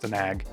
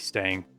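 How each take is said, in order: First: The word is said with two syllables. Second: The word is said with one syllable. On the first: The speaker calls it right. "I know it's Stanag" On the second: The speaker calls it wrong. "I say Stang"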